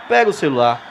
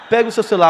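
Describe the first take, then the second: First: It is said slowly and deliberately. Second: It is said at a normal pace.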